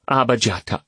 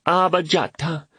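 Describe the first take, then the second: First: Put-on children's cheer. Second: Put-on high, excited child's call; children's cheer. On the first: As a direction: chant the name happily. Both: A narrator's reading.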